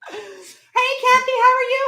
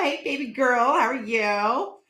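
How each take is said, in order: First: Much higher, louder sing-song hello; a high squeaky trial greeting; weird greeting. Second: Slow, drawn-out sweet hello; weird greeting. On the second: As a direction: stretch the hello out slowly. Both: Shown as a demonstration. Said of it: "Hey, that sounded weird".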